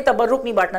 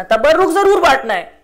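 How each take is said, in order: First: Said in the usual way. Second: ضرور hit higher and louder; stress on ضرور. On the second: Shown as a demonstration. Preacher corrects the audience, stressing ضرور. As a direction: punch the word ضرور, then fall.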